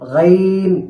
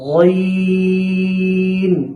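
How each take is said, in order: First: The name is said with a light, thin sound. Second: The name is said with a heavy, thick sound. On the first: The speaker calls it wrong. "এমনও যেন না হয়" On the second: The speaker calls it right. "গইনটাকে মোটা করে উচ্চারণ করতে হবে"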